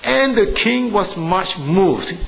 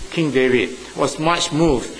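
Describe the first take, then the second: First: Slow, raised reading of the verse; solemn Bible reading voice; scripture reading. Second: Said in the usual way. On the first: Shown as a demonstration. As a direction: read it out as holy text, slowly and higher. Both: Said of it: "I read that verse for you".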